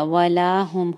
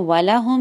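First: वला हुम with la held two counts; correct long la. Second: वला हुम with the short la; wrong short la. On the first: Teacher giving the correct recitation, la held long. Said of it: "वला हुम नहीं होगा". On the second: Teacher showing students the wrong way, short la. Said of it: "इसको वला हुम नहीं कहेंगे". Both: Shown as a demonstration.

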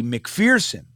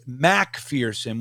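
First: "McPherson" with a quick, reduced first syllable; short Mc. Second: "Macpherson" with a full "mack" at the front; full Mac. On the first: Host revealing his birth surname, "McPherson" with a short Mc. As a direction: say "McPherson" starting on a short "mick". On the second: Host clarifying his birth surname, "Macpherson" with a full, slow Mac. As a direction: slowly spell out the Mac in "Macpherson" by ear. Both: Shown as a demonstration. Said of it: "which is Macpherson".

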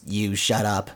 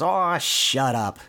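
First: Level, deadpan comeback; lightly imitated echoing spring; spring's echo. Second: Drawn-out, grumbling dismissal; slow mock annoyance; mild retold yell. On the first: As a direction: throw it back in monotone. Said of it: "the echo of his voice". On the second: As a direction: brush it off, lightly irritated. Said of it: "Donald kinda yelling at the spring".

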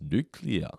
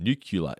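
First: Nuclear said as "new-klee-uh"; standard pronunciation. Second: Nuclear said as "nuke-yuh-luh"; deliberate mispronunciation. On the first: Co-host attempting the cartoon's mispronunciation, nuclear comes out standard. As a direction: say nuclear correctly, slowly, in two clear parts. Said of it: "I can't pronounce it properly". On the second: Co-host demonstrating the incorrect way, nuclear as "nuke-yuh-luh". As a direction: say nuclear wrongly, swapping in "kyoo-luh" at the end. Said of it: "That's not how you actually say it". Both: Shown as a demonstration.

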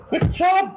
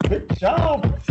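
First: High squeaky good job; mock praise. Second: High Good job, falling; sing-song Good job going down; mock praise. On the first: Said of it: "mock praise to co-host". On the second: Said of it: "repeats mock praise".

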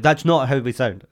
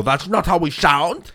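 First: Put-on Icelandic accent, upset. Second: Put-on slow, higher-pitched accented protest; hammed-up indignant objection in a put-on accent; mock angry. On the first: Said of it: "our Icelandic friends get upset". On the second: Offended native speaker objecting to an impression, mock angry. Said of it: "if they get angry and go".

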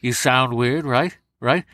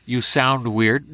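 First: Overdone scrunched-nose voice; exaggerated scrunched nose. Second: Slightly odd scrunched-nose sound, drawn out slowly. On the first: Impressionist pushing the De Niro trick further, exaggerated scrunched nose. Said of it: "just over-exaggerate it". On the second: Impressionist showing how De Niro starts, scrunched-nose voice. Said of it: "he scrunches up his nose". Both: Shown as a demonstration.

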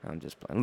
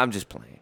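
First: Softer and lower, almost to himself; softer, lower repeat. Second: Said in the usual way. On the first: Real, not acted. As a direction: repeat it quietly, reassuring.

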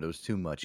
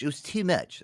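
First: Said in the usual way. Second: Mock emphatic repeat. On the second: Host joking about the show's schedule, mock emphatic.

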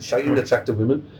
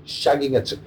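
First: Rough attempt at a Brummie accent; Birmingham accent. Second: Said in the usual way. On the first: Shown as a demonstration. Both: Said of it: "I'll do it in Birmingham accent".

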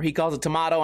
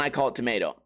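First: "tomato" said tuh-MAH-toh; broad-A pronunciation. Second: "tomato" said tuh-MAY-toh; long-A pronunciation. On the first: Comic reversing who says which, "tomato" as tuh-MAH-toh. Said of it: "or he calls it tomato". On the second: Comic reversing who says which, "tomato" as tuh-MAY-toh. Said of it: "and I call it tomato". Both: Shown as a demonstration.

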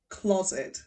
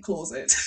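First: "closet" said carefully with a short, open first vowel; deliberate pronunciation. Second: "closet" with a long "aw" in the first syllable, like "claw-zit"; habitual mispronunciation. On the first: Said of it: "say very deliberately". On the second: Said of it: "I've been pronouncing it closet". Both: Shown as a demonstration.

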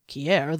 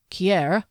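First: Falling, lower Kier, gently reproving; mild scolding. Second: Kier with a rising, hesitant tone. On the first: Valraker chiding Kier over guzzled wine, mild scolding. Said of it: "he scolded". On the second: Derry hesitantly raising a delicate question with Kier. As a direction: reach for her name unsure of yourself. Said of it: "Derry's voice was hesitant". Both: A narrator's reading.

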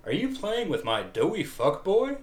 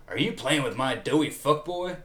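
First: Much higher, hammed-up fake-casual question; exaggerated, high attempt at covering annoyance; anger played off. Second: Mildly indignant question, raised and a little forced; anger lightly played off as something else; masked anger. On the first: Shown as a demonstration. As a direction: push the pitch way up to disguise your anger. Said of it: "try that line again with". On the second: A narrator's reading. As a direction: hide your annoyance behind the question. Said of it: "trying to play his anger off".

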